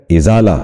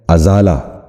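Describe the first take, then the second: First: ازالہ opening on a short "i": izaala; correct pronunciation. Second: ازالہ wrongly opened with "a": azaala; mispronunciation. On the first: Teacher modelling for viewers the correct ازالہ, izaala. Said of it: "درست تلفظ ہے". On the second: Teacher showing viewers the common error, ازالہ mispronounced as azaala. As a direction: say ازالہ with "a" instead of "i" at the start. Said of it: "جو غلط تلفظ ہے". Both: Shown as a demonstration.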